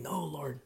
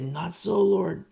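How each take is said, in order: First: Said in the usual way. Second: Loud, high exclaimed refusal; exclamation. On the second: Shown as a demonstration. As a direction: cry it out as an exclamation. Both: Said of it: "Exclamation point".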